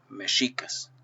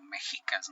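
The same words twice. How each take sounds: First: The x is said as a sh sound. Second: The x is not said as a sh sound. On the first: The speaker calls it right. "la pronunciación correcta es mexicas" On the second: The speaker calls it wrong. "Por el sonido de la X"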